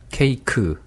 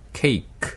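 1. 이 단어는 끝에 'eu' 모음이 붙어요. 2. 이 단어는 딱 끊어져서 모음이 안 붙어요. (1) "으 소리를 넣으면" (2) "으 소리를 빼면"

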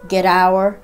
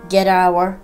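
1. t は d に近い弾き音で、単語をつなぎます。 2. t は d に近い弾き音で、単語をつなぎます。

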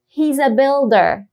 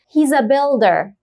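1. تُنطق He و is كمقطع واحد. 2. تُنطق He و is كمقطع واحد.

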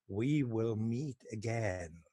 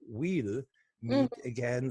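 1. 'We will' wird voll ausgesprochen, fast tonlos. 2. 'We will' wird zu einer kurzen Silbe zusammengezogen. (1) "sprach die Worte außerdem auf ihre typische Weise so fast so tonlos aus" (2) "die Königin sagte aber nicht We'll Meet Again"

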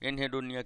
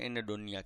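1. બીજા શબ્દાંશ પહેલાં 'h' અવાજ સંભળાય છે. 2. બીજા શબ્દાંશ પહેલાં કોઈ 'h' અવાજ સંભળાતો નથી. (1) "એનહેડોનિયા કયો તો તમને સ્પેલિંગ લખવાની મજા આવે" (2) "એને ઉચ્ચાર થાય એનેડોનિયા કહેવાય"

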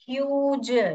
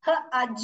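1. यह स्वर लंबा 'yoo' वाला है। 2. यह स्वर छोटा 'uh' वाला है। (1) "यू जो है अपना लॉन्ग साउंड निकल रहा है" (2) "हज करके नहीं पढ़ते हम"

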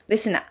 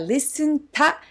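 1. tはnと混ざり、'na' に聞こえます。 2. tははっきり 'ta' と発音されています。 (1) "listen のn とつながってlisten なに聞こえます" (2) "listen ta ではなく"

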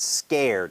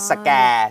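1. พูดด้วยสำเนียงอเมริกัน 2. พูดด้วยสำเนียงไทย (1) "นี่คือสำเนียงอเมริกันที่เจ๋งมากๆนะครับ" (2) "แต่คนไทยก็"

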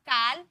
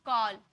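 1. यह स्वर 'ओ' वाला नहीं है। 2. यह स्वर 'ओ' वाला है। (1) "काल बोले क्या" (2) "ए के बाद डबल एल आया ना तो इसे ओ में पढ़े"

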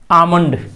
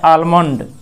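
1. पहले स्वर के बाद L की ध्वनि नहीं बोली जाती है। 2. पहले स्वर के बाद L की ध्वनि बोली जाती है। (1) "इसका असली उच्चारण एल यहाँ साइलेंट हो गया" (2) "यदि हम लोग बोलते हैं आलमंड"

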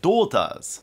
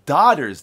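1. イギリス英語の発音です。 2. アメリカ英語の発音です。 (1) "静香さんが言ったのはdaughters" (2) "アメリカ英語で言うと"

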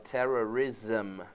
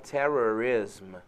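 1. A terminação é pronunciada como 'zum'. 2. A terminação é pronunciada como 'iss-m'. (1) "se fala terrorism" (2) "não se fala terrorism"

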